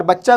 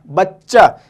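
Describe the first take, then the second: First: Said in the usual way. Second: बच्चा with a held double च; doubled ch in बच्चा. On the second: Shown as a demonstration. Teacher to class: बच्चा with a clearly doubled च. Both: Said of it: "चे को हम दो बार pronounce करते हैं".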